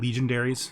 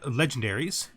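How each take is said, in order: First: The word begins like 'legion'. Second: The word begins like 'legend'.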